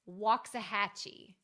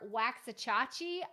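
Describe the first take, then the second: First: The name is said simply and smoothly. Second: The name is said with an extra hard ch sound. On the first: The speaker calls it right. "the next one is Waxahachie" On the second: The speaker calls it wrong. "try to pronounce it a lot harder than it is"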